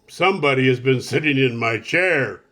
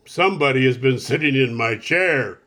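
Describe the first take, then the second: First: It is said in Papa Bear's rough, gruff voice. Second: It is said in Papa Bear's rough, gruff voice.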